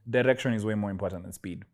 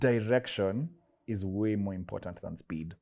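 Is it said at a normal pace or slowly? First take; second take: normal; slowly. First: It is said at a normal pace. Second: It is said slowly and deliberately.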